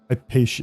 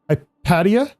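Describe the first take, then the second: First: The name ends with a 'sha' sound. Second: The name ends with a 'tee-ah' sound.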